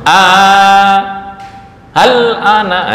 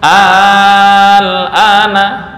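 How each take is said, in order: First: The two vowelless letters are split apart. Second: The two vowelless letters are said together. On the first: The speaker calls it wrong. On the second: The speaker calls it right.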